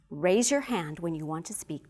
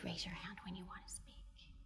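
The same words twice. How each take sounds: First: It is said in a strong, firm voice. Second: It is said in a soft, gentle voice. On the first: The request is expected to be followed. The speaker calls it right. "here's a demonstration of strong voice" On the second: The request can easily be ignored. The speaker calls it wrong. "So I am going to demonstrate soft voice"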